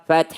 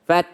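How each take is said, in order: Both takes have the same delivery.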